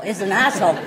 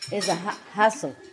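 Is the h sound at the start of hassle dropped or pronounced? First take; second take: dropped; pronounced. First: The h sound is dropped entirely. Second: The h sound is clearly pronounced.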